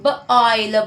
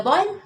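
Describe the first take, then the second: First: B-oil, split into b and oil; segmented. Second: Said in the usual way. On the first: Shown as a demonstration. Teacher splitting the word again for students. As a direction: break it into b and oil. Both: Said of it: "missed O I".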